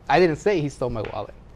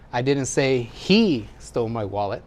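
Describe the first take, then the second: First: The word "I" carries the stress. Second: The word "he" carries the stress. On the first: Someone else said it. "Wasn't me" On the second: Someone else took it. "It's not him, somebody else"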